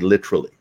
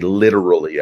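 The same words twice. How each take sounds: First: The word is said with a British-influenced pronunciation. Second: The word is said with an American pronunciation. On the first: This habit comes from living abroad. "I say literally, um, and it's from that formative period" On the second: This is the usual local way. "I don't say literally"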